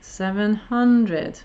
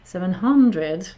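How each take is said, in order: First: "Seven hundred" said slowly, falling on hundred; slow falling tune. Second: "Seven hundred" slow, rising on hundred; rising tune. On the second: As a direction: lift the voice up on "hundred". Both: Shown as a demonstration. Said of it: "the seven hundred was going up".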